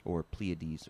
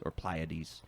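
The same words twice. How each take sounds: First: "Pleiades" said PLEE-uh-deez; American-style "Pleiades", starting like "plea"; American pronunciation. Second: "Pleiades" said PLY-uh-deez; British-style "Pleiades", starting like "ply"; British pronunciation. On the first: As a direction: say "Pleiades" with a long ee in the first syllable. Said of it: "I think I'm saying it wrong". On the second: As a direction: say "Pleiades" rhyming its first syllable with "fly". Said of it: "This is the British pronunciation". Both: Shown as a demonstration.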